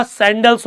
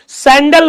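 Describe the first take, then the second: First: सैंडल्स with a clear final s sound; correct plural form. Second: सैंडल said without the final s, as the mistake; wrong singular form. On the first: Teacher giving students the right word सैंडल्स with the s. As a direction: finish सैंडल्स on a crisp s. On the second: Teacher showing students the wrong word सैंडल with no s. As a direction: say सैंडल ending bare on the l, the wrong way. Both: Shown as a demonstration. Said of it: "real में words क्या होता है बेटा".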